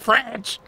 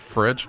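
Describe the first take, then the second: First: The word is said in an exaggerated, playful way. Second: The word is said plainly and casually. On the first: The speaker is joking around. "If I want to be funny, I'll be like" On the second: This is the normal everyday way. "I'll just say fridge"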